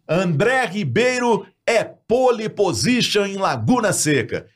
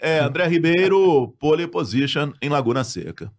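First: Punchy radio headline, slow and lifted; headline read. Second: Headline read slow with no punch, sinking at the end; wrong intonation. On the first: Radio anchor opening the morning show with a headline, announcing. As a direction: sell it like the top story of the morning news. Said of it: "Isso é uma manchete". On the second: Anchor reading a headline without weight, flat delivery. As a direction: throw the headline away as if it were nothing. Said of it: "Tá errada a entonação". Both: Shown as a demonstration.

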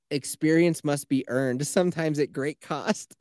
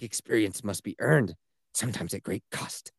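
First: Slow, mildly solemn recital; dramatic quote. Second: Low, hushed movie-hero gravity; dramatic quote. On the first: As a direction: lightly imitate a solemn film hero, slowly. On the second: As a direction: drop low and soft, mock-portentous. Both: Retold or imitated. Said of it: "he says it with so much drama".

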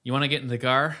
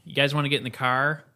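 First: Plain, level Iowan delivery; flat Iowan accent. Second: Iowan accent with a hard R in CAR; quick Iowan twang, nasal and hard-R'd. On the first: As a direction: flatter Iowan take on the car line. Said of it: "I think we're more flat". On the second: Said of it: "That gets nasally. It can get hard". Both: Shown as a demonstration.

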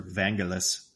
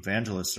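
First: "Vangelis" said the other way, second option; alternative pronunciation. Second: "Vangelis" said one way, first option; alternative pronunciation. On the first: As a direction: offer the second way of saying "Vangelis". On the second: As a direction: offer the first way of saying "Vangelis". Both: Shown as a demonstration. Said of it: "however you'd like to pronounce that".

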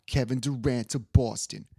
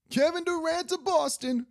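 First: Half-hearted sportscaster quote, close to own voice; a hint of TV pundit; Stephen A. Smith. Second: Very high-pitched mock-pundit proclamation; hammed-up prediction held high all through; Stephen A. Smith. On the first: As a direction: lightly imitate an emphatic pundit's prediction. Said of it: "I can't do his accent". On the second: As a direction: imitate a pundit at peak insistence. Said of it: "that's how he goes".

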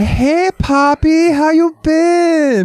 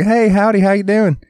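First: Very high, drawn-out mock Miami accent; squealed, exaggerated Miami Latina greeting. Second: High, twangy mock redneck greeting; hammed-up redneck accent. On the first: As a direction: imitate a gushing Miami accent, stretched right out. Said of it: "and then she moved to Miami". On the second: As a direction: imitate a country girl's redneck howdy. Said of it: "You used to talk like".

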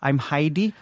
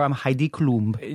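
First: Said in the usual way. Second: Slow, self-important "I'm Heidi Klum"; grand full-name intro. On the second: Shown as a demonstration. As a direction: drawl the full name like a star. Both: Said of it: "Does she say".

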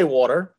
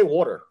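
First: "water" said the way he does not say it; wrong water. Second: "water" with a clear R at the end; New York water. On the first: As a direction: mimic the other's "water", r softened. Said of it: "I don't say water". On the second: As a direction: say "water", hitting the final R. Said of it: "I say water". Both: Shown as a demonstration.

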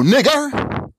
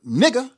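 First: "nigger" with a fully sounded final r; hard -er ending. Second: "nigger" ending in an open "-a", no r; final -a ending. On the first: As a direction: slowly stress the "-er" that ends "nigger". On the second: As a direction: drop the r at the end of "nigger", finishing on "uh". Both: Shown as a demonstration. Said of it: "depending on how you speak".

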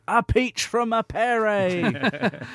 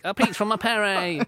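First: Slow, high English football commentator call; mock English commentator voice; English commentator accent. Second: Put-on slow, high commentator call in an English accent; mock English commentator shout. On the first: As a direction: ham up a posh English commentator. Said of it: "I don't know why I put an English accent on that". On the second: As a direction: copy the English commentator for a laugh. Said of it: "I guess that's what all commentators sound like".

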